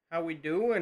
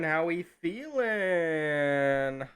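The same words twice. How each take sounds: First: Said in the usual way. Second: Very slow, stretched-out hype greeting; drawn-out greeting. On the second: Acted. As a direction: drag out every word like a host.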